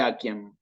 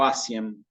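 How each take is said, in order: First: The letter C is sounded like a K. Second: The letter C is sounded like an S. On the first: The speaker calls it right. "la tengo que pronunciar como una K" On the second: The speaker calls it wrong. "este error"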